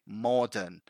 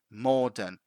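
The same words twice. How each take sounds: No difference in how they are said.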